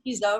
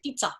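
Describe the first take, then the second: First: The middle consonant is a plain z sound. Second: The middle consonant is a ts sound. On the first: The speaker calls it wrong. "We don't say pizza" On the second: The speaker calls it right. "the T Z is like pizza. ... We say pizza"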